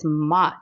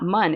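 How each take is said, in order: First: The vowel sounds like 'oh', as in 'mo'. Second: The vowel sounds like 'uh', as in 'mun'. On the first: The speaker calls it right. "it's mo, M O, not M U" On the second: The speaker calls it wrong. "it's not mun"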